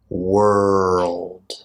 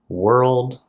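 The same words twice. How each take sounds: First: The word is said slowly and drawn out. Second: The word is said at a normal speed. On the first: "Say it with me three times slowly" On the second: "And three times at a regular speed"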